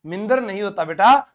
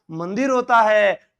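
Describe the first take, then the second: First: मिंदर as min-dar, i in the first syllable; teacher quoting मिंदर with swapped vowels; wrong form corrected. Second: मंदिर drawn out slowly as man-dir; slow model of standard मंदिर; correct pronunciation. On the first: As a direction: show the child the mistaken मिंदर. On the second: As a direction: teach मंदिर slowly, i in the second syllable. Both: Shown as a demonstration. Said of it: "सही उच्चारण बताना".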